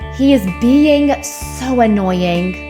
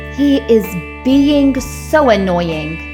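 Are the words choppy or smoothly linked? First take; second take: linked; linked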